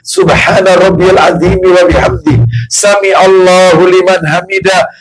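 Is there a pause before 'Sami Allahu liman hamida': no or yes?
no. It runs straight on without a pause. The prayer is rushed, without calm. The speaker calls it wrong. "Nomor satu ketika rokok nih"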